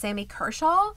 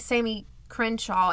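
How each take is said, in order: First: The surname has no n sound: Kershaw. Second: The surname has an n sound: Crenshaw. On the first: The speaker calls it right. "and it's [name]" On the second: The speaker calls it wrong. "I say it wrong every time. I think I say Sammy Crenshaw"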